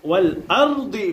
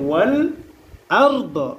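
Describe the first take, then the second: First: The last word ends with a short 'i' vowel. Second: The last word ends on a bare 'd' consonant. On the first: The speaker calls it wrong. "ওয়াল আরদি পড়া যাবে না" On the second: The speaker calls it right. "কি পড়তে হবে? ওয়াল আরদ"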